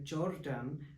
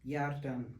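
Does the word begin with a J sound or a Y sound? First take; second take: J sound; Y sound. First: The word begins with a J sound. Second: The word begins with a Y sound. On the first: The speaker calls it wrong. "mispronunciation of Y to J in words like" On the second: The speaker calls it right. "which is supposed to be"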